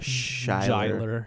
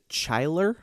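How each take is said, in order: First: The name begins with a soft sound. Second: The name begins with a hard sound. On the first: "maybe it's a soft" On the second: "I want to pronounce it Chyler"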